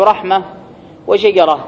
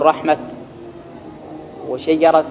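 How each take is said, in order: First: رحمة and وشجرة ending in ah; pause on ha. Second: رحمة and وشجرة ending in a sounded t; pause on ta. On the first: Teacher reading singular examples, pausing on ha. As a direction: let رحمة and وشجرة end on h, no t. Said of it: "فالأفصح الوقف بالهاء". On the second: Teacher showing how some Arabs pause, with ta. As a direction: close رحمة and وشجرة on t, as rahmat, shajarat. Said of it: "وبعضهم يقف بالتاء". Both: Shown as a demonstration.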